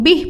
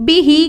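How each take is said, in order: First: The word ends on the h consonant. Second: The word ends with a long i vowel. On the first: This is the form used when stopping at the end. "वक्फ की सूरत में हम इसको बिही को बिह पढ़ेंगे" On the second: This is the full form, read without stopping. "हा के नीचे खड़ा ज़ेर है"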